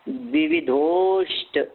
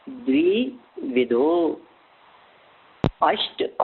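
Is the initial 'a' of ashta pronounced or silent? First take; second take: silent; pronounced. First: The words are joined, with the 'a' dropped. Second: The words are separate, with the 'a' sounded.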